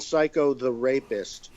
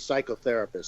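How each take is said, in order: First: The word is split into separate parts. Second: The word is said quickly as one unit. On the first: "it's broken down" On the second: "I like to say it quickly"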